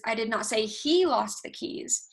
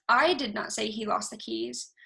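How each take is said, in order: First: "he" lifted and pressed, the rest even; stress on HE. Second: "I" punched first, the rest level; stress on I. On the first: Presenter giving the contrasting take, stress on "he". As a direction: lean into "he" in the middle of the line. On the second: Presenter contrasting meanings for the audience, stress on "I". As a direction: open hard on "I", let the sentence fall after it. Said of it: "inflection is the way that you speak certain sentences". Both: Shown as a demonstration.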